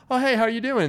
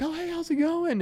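First: High, stiff polite greeting; awkward stranger greeting. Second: Much higher, bright friendly greeting; cheery Southern hello; friendly Southerner. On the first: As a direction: say hi like it's a bit awkward. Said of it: "here it's like". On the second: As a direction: greet a stranger like an old friend. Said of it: "they're like". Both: Retold or imitated.

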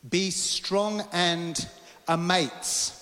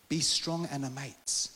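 First: "Be strong and amaze" proclaimed very slowly, with pauses; emphatic proclamation. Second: "Be strong and amaze" slow and understated; restrained repeat. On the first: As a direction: draw out "strong" and land hard on "amaze". Emphatic first proclamation of verse. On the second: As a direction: let "Be strong and amaze" settle, unforced and slow. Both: Acted.

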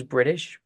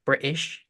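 First: Said in the usual way. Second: "British" in a British accent with the T swallowed; mock British accent on "British", no T in the middle; British accent, dropped T. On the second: Shown as a demonstration. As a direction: say "British" British-style, a glottal stop for the middle T. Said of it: "'cause, you know, wants to take".

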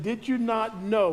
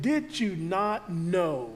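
First: Said in the usual way. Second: Slow, softer gentle correction of parents; gentle slow reproach; soft rebuke. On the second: Shown as a demonstration. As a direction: ask it slowly as a soft rebuke. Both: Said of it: "a soft rebuke".

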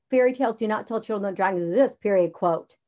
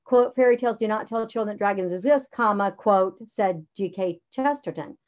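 First: Fast dictated wrong version. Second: Dictated correct version, quote marks spoken; right way. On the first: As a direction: read it as the mistake. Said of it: "You don't, like". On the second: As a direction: read it as the correct model. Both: Shown as a demonstration.

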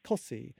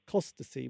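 First: COSSEY, Costessey cut down to two syllables; local pronunciation. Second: COSTESSEY sounded out in full, "cos-tess-ee"; as spelt. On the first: Host explains local place names, Cossey in the local pronunciation. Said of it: "but you pronounce it Cossey". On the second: Host explains local place names, Costessey pronounced as spelt. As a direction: say every syllable of Costessey as written. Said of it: "which is how you spell it". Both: Shown as a demonstration.

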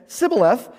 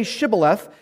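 First: "Sibboleth" begun with a plain s, no h; mispronounced shibboleth. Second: "Shibboleth" begun with a clear sh sound; correct shibboleth. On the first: Ephraimite failing the password test, "Sibboleth" with a bare s. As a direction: say "Sibboleth" with s in place of sh. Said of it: "he could not pronounce it right". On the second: Gileadites testing fugitives at the fords, "Shibboleth" with a proper sh. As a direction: say "Shibboleth" with a hushing sh at the front. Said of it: "could not pronounce it right". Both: Shown as a demonstration.

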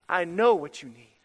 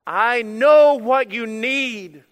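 First: Said in the usual way. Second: Slow, loud, drawn-out proclamation; booming declaration. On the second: Acted. Preacher voicing the shepherd to his sheep, slow and booming. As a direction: boom it out like the shepherd calling his flock.

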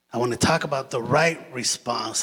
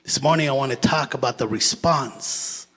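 First: Right leaned on a little, rest even; stress on right. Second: Said in the usual way. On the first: Shown as a demonstration. Preacher to the church, a touch of stress on right. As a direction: give the word right a firm push.

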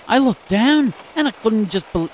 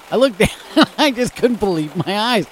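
First: Put-on a clumsy, high, louder stab at an Aussie accent; terrible Australian accent. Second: Said in the usual way. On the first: Radio host quoting a dog owner in a bad Australian accent. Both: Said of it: "oh, that's a terrible accent".

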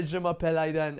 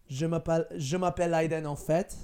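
First: Said in the usual way. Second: Je m'appelle Aiden with en fait added at the end; casual French, en fait tacked on as an afterthought. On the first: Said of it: "so if I say". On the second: Shown as a demonstration. Showing listeners how to sound fluent, en fait tacked on. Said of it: "But if I say".

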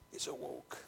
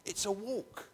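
First: "It's a walk." almost hushed; hushed repeat; softly. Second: A walk, said firmly and higher; stressed "It's a walk."; emphatic. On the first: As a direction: drop to a soft echo of "It's a walk.". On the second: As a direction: lean on "a walk" with weight. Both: Shown as a demonstration. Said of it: "repeated softer".

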